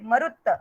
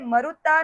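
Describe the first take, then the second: First: The word ends on the t consonant. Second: The word ends with a long a vowel. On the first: The speaker calls it right. "मरुत है तो उसको तकारांत बोल देंगे" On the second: The speaker calls it wrong. "यहाँ पे मरुता नहीं है"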